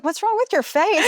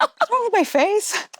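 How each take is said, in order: First: Mock-quizzical, much higher and rising; imitating the trainer. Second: Higher, slower, rising in disbelief; mock surprise. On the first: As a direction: play the trainer noticing her face, lightly. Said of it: "And then you're like". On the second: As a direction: draw it out like you can't believe it. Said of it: "And I was like".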